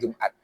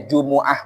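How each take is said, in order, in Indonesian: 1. Kata ini terdiri dari dua suku kata yang berakhir dengan t. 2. Kata ini terdiri dari tiga suku kata, dengan hentian glotal. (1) "bukan Jumat" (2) "Itu bacanya Jumu'ah"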